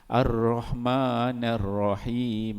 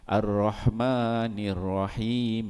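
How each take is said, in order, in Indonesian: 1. Vokal setelah n adalah a. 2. Vokal setelah n adalah i. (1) "ada yang baca nun yang bagi atas" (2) "sepatutnya Ar-Rahmanir Rahim"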